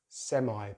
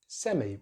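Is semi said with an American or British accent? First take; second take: American; British. First: American accent, ending in an 'eye' sound. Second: British accent, ending in an 'ee' sound. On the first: "They use the I diphthong" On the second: "in British English we have semi"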